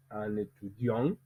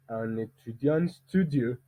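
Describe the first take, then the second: First: "un étudiant" alone, rising onto a stressed "diant"; group-final stress. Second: "un étudiant studieux" slowly, the stress moved on to "studieux"; group-final stress. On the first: Teacher contrasting rhythm groups, stress ending "étudiant". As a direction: lift and weight the end of "étudiant". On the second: Teacher contrasting rhythm groups, stress ending on "studieux". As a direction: save the long beat for "studieux". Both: Shown as a demonstration. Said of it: "ce n'est pas le même dire".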